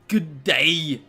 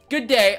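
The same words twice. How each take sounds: First: It is said in a put-on foreign accent. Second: It is said in the speaker's normal accent.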